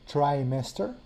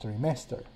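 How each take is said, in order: First: The word is said with English vowels. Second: The word is said with Latin-style vowels.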